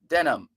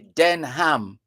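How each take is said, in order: First: The h sound in the middle is silent. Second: The h sound in the middle is pronounced. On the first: The speaker calls it right. "you don't pronounce the H" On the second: The speaker calls it wrong. "You don't go out of your way to say"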